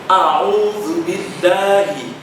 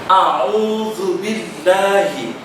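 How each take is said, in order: Both takes have the same delivery.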